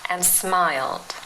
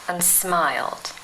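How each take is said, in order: No difference in how they are said.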